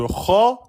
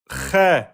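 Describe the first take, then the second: First: The syllable is heavy, with an o-like vowel. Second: The syllable is light, with an e-like vowel. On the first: The speaker calls it right. "au lieu de Kho" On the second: The speaker calls it wrong. "si vous dites Khe"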